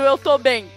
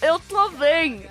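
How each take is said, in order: First: It is spoken clearly and normally. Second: It is spoken crookedly, as if with a swollen cheek.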